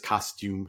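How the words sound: It is pronounced the British way. The speaker calls it wrong. "she'll say a word in British English. She'll like she says costume"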